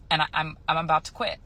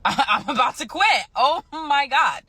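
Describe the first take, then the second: First: Said in the usual way. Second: Giddy, higher-pitched and half laughing; excited. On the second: Real, not acted. Nurse realizing she is about to quit, giddy excitement. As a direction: let the excitement burst out, higher and drawn out. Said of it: "You sound so excited".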